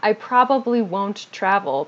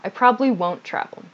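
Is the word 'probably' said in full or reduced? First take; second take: full; reduced. First: The word probably is said in full. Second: The word probably is said reduced and shortened. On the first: The speaker calls it wrong. "So not" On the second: The speaker calls it right. "this probably also gets reduced here"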